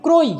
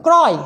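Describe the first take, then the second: First: ক্রয় as "kroy"; closed "o" in ক্রয়; wrong closed vowel. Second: ক্রয় as "kraw-y"; correct open vowel. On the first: Teacher shows what it won't be, ক্রয় with closed "o". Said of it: "হবে না". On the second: Teacher shows the exception, ক্রয় with open "aw". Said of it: "উচ্চারণটা". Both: Shown as a demonstration.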